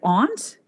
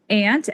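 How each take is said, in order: First: The vowel is a broad 'ah' as in 'father'. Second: The vowel is a flat 'a' as in 'ant'.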